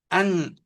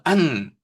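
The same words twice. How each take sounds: First: The word begins with a strained, forceful push. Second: The word begins plainly, without straining. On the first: The speaker calls it right. "아주 힘을 주어서 안 그럽니다" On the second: The speaker calls it wrong. "그것은 안이 아닙니다"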